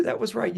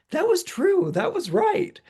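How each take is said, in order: First: Said in the usual way. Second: Much higher, bright squeaky concession; friend conceding. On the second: Retold or imitated. Friend tells the astrologer she was right, much higher mock-squeal. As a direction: squeal it like a giddy friend admitting you called it.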